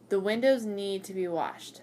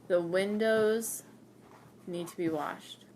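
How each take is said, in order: First: It is said at normal speed. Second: It is said slowly.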